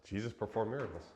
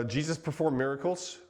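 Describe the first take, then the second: First: Fast amused echo of his own line; laughing repeat. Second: Loud, higher, with rising stress on performed; a bold headline, louder, pushing up on performed; emphatic announcement. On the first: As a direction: toss it off again, chuckling at himself. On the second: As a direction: announce it boldly to the room. Restates his point after a pause. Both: Real, not acted.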